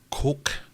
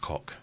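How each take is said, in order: First: The vowel is a long 'oh', like coke. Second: The vowel is a short 'o', like cock. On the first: This is the proper pronunciation. "I think is how you properly pronounce it" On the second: This is the jokey pronunciation they prefer. "we like to say his cock"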